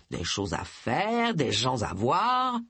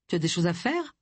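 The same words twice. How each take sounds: First: Slow, lower teasing reply; mysterious half-mocking dodge; evasive echo. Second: Said in the usual way. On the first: A narrator's reading. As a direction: draw it out, giving nothing away. Charles echoes her evasively.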